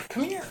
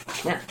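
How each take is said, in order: First: Very high, soft coaxing voice for the dog; sweet pet call. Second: Said in the usual way. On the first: Real, not acted. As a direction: coax the dog in a high sing-song. Calling the dog over.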